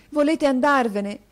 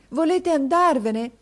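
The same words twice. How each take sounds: First: Much higher, louder pleading question; boy pleads with his teacher, urgent. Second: Much higher, louder, slow pleading repeat; boy repeats his plea to his teacher, slowly; slower plea. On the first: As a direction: press him for an answer. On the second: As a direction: draw out the repeat, begging. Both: A narrator's reading.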